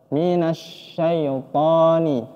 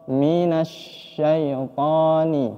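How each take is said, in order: No difference in how they are said.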